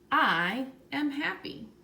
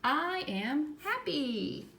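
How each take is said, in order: First: It is said plainly, without much feeling. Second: It is said excitedly, with lots of feeling.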